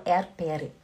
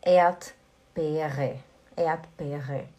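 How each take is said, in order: First: Swiss German Erdbeere with the R sounded, Erd-beh-reh. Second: Standard German Erdbeere, first R silent; Erdbeere, Ait-beh-reh. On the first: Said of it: "dialeto aqui da Suíça". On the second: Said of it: "Mas alemão fala". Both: Shown as a demonstration.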